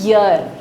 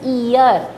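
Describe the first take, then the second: First: The word starts with a y sound. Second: The word starts with an ee vowel. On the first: The speaker calls it right. "इसको आप पढ़ते हैं यर" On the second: The speaker calls it wrong. "ये बिल्कुल गलत उच्चारण है"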